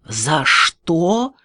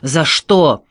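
First: Incredulous, rising angry question; acted rage on a climbing question; furious echo. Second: Louder, aggrieved cry; short, indignant acted yell; hurt cry. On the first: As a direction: throw the question back in outrage. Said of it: "заорал в бешенстве". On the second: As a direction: cry out as if unjustly hit. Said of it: "крикнул". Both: A narrator's reading.

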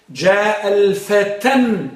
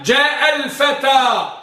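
First: الفتى said "al-fatan", with a held final n; wrong tanween. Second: الفتى ending in a long, high open "aa", no final n; no tanween. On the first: Teacher shows the forbidden form, الفتى with tanween "-tan". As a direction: draw out جاء الفتى slowly, adding n at the end. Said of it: "بالتنوين". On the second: Teacher models the phrase for students, الفتى without tanween. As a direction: draw out جاء الفتى slowly and loudly, ending on a vowel. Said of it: "لا يمكن ال والتنوين لا يجتمعان". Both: Shown as a demonstration.

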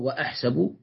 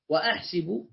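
First: وأحسب said wa-ahsabu, with a on the s; teacher gives وأحسب as wa-ahsabu with a; fatha form. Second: وأحسب said wa-ahsibu, with i on the s; teacher gives وأحسب as wa-ahsibu with i; kasra form. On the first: Teacher shows students the regular form, wa-ahsabu with a. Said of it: "والأقيس وأحسب". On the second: Teacher shows students the classical form, wa-ahsibu with i. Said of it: "الأفصح وأحسب". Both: Shown as a demonstration.

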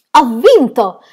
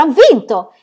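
First: Loud, high victory cry; triumphant shout. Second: Louder, higher victory cry; triumphant shout. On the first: Aunt shouting after reaching seven hundred five skips. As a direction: shout it like a champion. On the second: Aunt shouting her win again on the ground. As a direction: throw the win out even harder. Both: Acted. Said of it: "gridò allora".

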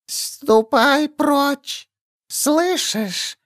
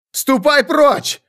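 First: High, very slow thin hiss of a creature; thin whistling voice. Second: High, slow croak, not his own voice; croaking strange voice. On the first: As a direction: stretch the words out, thin and whistling. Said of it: "Голос ... тоненький, свистящий". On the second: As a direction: croak it out in a strained voice. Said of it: "каркнул я не своим голосом". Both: A narrator's reading.

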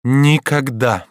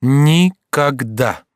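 First: Slow, drawn-out, higher-pitched refusal; emphatic refusal. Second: Very slow, higher-pitched, each syllable apart; adamant refusal. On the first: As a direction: stretch the word in firm refusal. Mother repeats her refusal. (протяжно и непреклонно) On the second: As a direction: refuse syllable by syllable, drawn right out. Mother repeats refusal, slower. (непреклонно, по слогам) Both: A narrator's reading.

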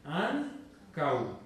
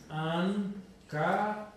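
First: Ancau in two beats, an-cau; two syllables. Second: Ancau broken into three, an-ca-u; three syllables, mistaken. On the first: Teacher correcting the split, Ancau demonstrated as an-cau. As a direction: glide A into U so Ancau ends in one syllable CAU. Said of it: "Dos sílabas". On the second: Teacher showing students what to avoid, ancau wrongly split an-ca-u. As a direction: separate the final U of ancau as its own long syllable. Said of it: "No, no es ancau". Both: Shown as a demonstration.

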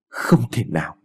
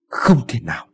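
First: Said in the usual way. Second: Tearful, words breaking with a sob; husband weeps over his dead wife, crying. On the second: A narrator's reading. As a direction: say it as grief overtakes him.

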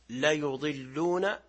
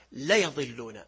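First: ليضلون read la-yuḍillūn with a "yu"; damma on the ya. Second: ليضلون read la-yaḍillūn with a "ya"; fatha on the ya. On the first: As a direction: say ليضلون with u after the ya, slowly. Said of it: "بضم الياء". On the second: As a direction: say ليضلون with a after the ya, slowly. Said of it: "بفتح الياء". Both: Shown as a demonstration.

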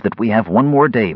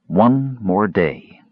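First: Said in the usual way. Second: Very slow, grave repetition; slow, ominous. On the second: Acted. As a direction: drag out every word darkly.

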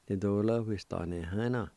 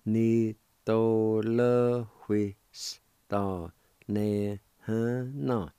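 First: Quicker natural run of Ni to le hui s ta ne he na; fluent natural pace; at normal speed. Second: Slow, careful syllables; teacher slowly modeling the word; slow demo. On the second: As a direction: drag Ni to le hui s ta ne he na out slowly. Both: Shown as a demonstration.

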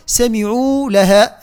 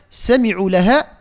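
First: Slow سمعوا لها with a full long "uu"; drawn-out, filled ayn in سمعوا; saturated ayn. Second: سمعوا لها with a short "u" after the ayn; clipped vowel in سمعوا, straight on to لها; unsaturated ayn. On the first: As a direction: hold the vowel at the end of سمعوا. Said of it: "عندنا إشباع هنا". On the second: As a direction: pass quickly over the end of سمعوا. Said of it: "كأن العين معرقة". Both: Shown as a demonstration.

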